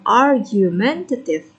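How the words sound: North American pronunciation, with the R pronounced. "R and A"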